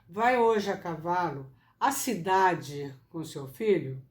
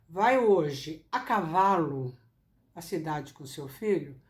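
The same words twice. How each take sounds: First: The word cidade carries the strongest stress. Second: The word cavalo carries the strongest stress. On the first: The question is about the destination. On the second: The question is about the means of travel.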